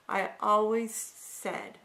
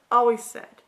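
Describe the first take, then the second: First: Said in the usual way. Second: Always pushed out loud and firm; stress on always. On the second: Shown as a demonstration. Speaker admits to viewers she always apologized, stressing always. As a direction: hammer the word always.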